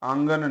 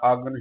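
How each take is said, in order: First: The first vowel is nasalized. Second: The first vowel is not nasalized. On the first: The speaker calls it wrong. "ਆਂਗਨ ਨਹੀਂ ਉਚਾਰਨ ਕਰਨਾ" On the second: The speaker calls it right. "ਆਗਨ ਹੀ ਉਚਾਰਨ ਕਰਨਾ ਹੈ"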